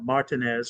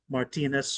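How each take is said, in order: First: It is said the South Louisiana way. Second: It is said the general American way.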